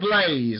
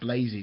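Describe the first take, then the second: First: The name ends on a plain 'z' sound. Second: The name ends with an added 'ee' sound. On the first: The speaker calls it right. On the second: The speaker calls it wrong.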